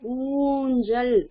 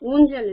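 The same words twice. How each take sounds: First: The first vowel is long and stretched. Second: The first vowel is short and clipped. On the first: The speaker calls it right. "நீட்டி சொல்லணும்" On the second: The speaker calls it wrong. "இல்ல"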